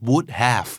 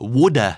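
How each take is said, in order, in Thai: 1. Have ออกเสียงเป็นคำเต็มคำหนึ่งต่างหาก 2. Have ลดรูปเหลือเสียง 'uh' สั้นๆ (1) "ร่างเต็ม" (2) "คำที่โดนย่นมานะครับโดนลดรูปมาจากร่างเต็ม"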